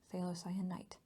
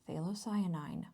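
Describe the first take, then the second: First: The word ends with an 'ite' sound. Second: The word ends with an 'ine' sound. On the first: The speaker calls it wrong. "it is not phthalocyanite" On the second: The speaker calls it right. "it is phthalocyanine"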